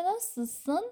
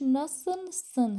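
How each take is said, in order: First: "ناسسن" with the l dropped; native fast pronunciation. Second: "ناسلسن" with the l clearly sounded; full careful pronunciation. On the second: («ناسلسن» با تلفظ کاملِ لام) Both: Shown as a demonstration.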